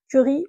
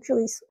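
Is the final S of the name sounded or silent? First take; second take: silent; sounded. First: The name ends without an S sound. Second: The name ends with an S sound. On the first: "je ne sais pas si on prononce le, le S" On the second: "je ne sais pas si on prononce le, le S"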